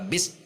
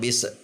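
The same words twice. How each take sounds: First: The s is cut off abruptly. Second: The s ends with a bouncing release. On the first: "yang dihentak adalah bis, langsung berhenti" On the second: "yang memantul"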